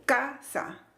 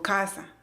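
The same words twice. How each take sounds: First: "casa" split in two, CA punched; exaggerated syllable stress. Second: Said in the usual way. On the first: Teacher showing how not to say it, overdone stress. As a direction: punch CA, pause, then drop "sa" in "casa". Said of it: "yo no digo casa". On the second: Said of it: "Yo digo casa".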